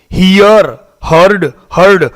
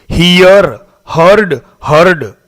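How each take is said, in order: Both takes have the same delivery.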